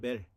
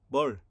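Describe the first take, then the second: First: The vowel is the front 'e' sound. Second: The vowel is the open 'eo' sound. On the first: This is the Western-style reading. "서양에서는 에로 발음하니까 멜이 되겠죠" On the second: This is the Chinese-style reading. "이 발음을 중국에서는 어로 발음 난다고 그랬죠"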